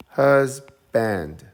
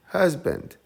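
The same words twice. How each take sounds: First: Husband as HUS, pause, BAND with full a; loud first beat in Husband, then separate band; split into syllables. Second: Said in the usual way. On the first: Shown as a demonstration. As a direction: break Husband into hus... band, both stressed. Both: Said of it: "we have two syllables".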